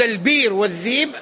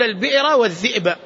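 First: البير والذيب, the hamza glided away; البير والذيب in the easy Hijazi way; hamza softened to ya. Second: A crisp hamza in البئر والذئب; البئر والذئب with the hamza fully sounded; hamza pronounced. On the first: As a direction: say البير والذيب with a long i and no glottal stop. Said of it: "يعني أن تقول". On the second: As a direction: say البئر والذئب with a clear glottal stop. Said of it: "أفصح من أن تقول". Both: Shown as a demonstration.

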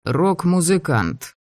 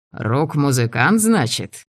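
First: Твёрдо. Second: Иронично. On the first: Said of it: "неожиданно твёрдым голосом". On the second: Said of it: "иронически усмехнулся Джо". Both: A narrator's reading.

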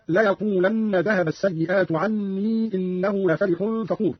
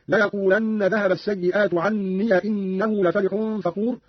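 First: Said in the usual way. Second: عني opened to "anniya" before إنه; fatha on ya. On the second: Shown as a demonstration. Teacher shows Qalun's reading, عني as "anniya". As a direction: say عني as "an-ni-ya", no long i. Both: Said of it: "قرأ قالون بفتح ياء عني".

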